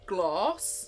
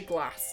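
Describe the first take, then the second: First: It is said in a southern English accent. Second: It is said in the speaker's own accent.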